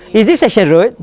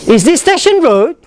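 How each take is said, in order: First: "Is this Station Road?" said low and flat; flat question. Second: "Is this Station Road?" rising at the end; rising question. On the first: Teacher shows the wrong flat question. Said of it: "you cannot go". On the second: Teacher models a rising yes-no question. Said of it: "the intonation should be up". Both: Shown as a demonstration.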